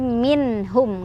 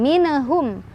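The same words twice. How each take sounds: First: The n sound is clear without bouncing. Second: The n sound has a bouncing release. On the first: The speaker calls it right. "tapi minhum, nggak boleh mantul" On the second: The speaker calls it wrong. "bukan minhum"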